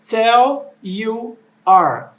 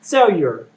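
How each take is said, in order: First: Each word is said separately and fully. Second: The words run together like one word. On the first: "ele não diz tell you are" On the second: "É quase como se fosse uma palavra só"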